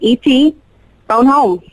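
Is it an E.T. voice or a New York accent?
New York accent. It is said in a New York accent.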